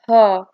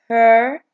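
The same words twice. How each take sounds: First: It is said with a British accent. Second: It is said with an American accent. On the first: "in British" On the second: "in American"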